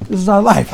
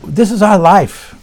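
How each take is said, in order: First: Said in the usual way. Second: Slow, weighty, stress on our; sermon punchline drawn out on our; slow emphatic lesson line. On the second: Shown as a demonstration. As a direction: land the moral slowly, leaning on our. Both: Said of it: "repeats the lesson's key line".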